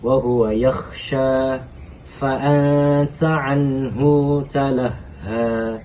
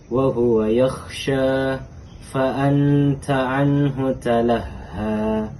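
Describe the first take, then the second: First: The vowel ending 'anhu' is drawn out long. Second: The vowel ending 'anhu' is kept short. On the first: "Ibnu Katsir membaca dengan silah" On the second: "itu tadi bacaan dari tidak silah"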